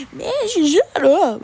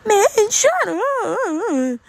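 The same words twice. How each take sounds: First: High, loud mocking squeak of the girl; mock her cracking voice, pitched up. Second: Very high, slow, squeaky cracking voice; exaggerated voice crack. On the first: Imitating the tuba girl to classmates with a mock voice crack. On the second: Imitating the annoying girl telling him to shut up, voice cracking. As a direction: ham up her voice breaking mid-word. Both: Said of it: "she has a voice crack every two seconds".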